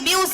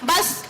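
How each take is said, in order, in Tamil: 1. உயிரெழுத்து எழுத்துக்களைப் போல 'yoo' ஒலி. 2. உயிரெழுத்து குறுகிய 'uh' ஒலி. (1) "முறையா அது எப்படி உச்சரிக்கணும்னா பி யூ எஸ் அப்படின்னு தானே வருது" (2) "சொல்லாக உச்சரிக்கும் பொழுது பஸ் அப்படின்னு வருது"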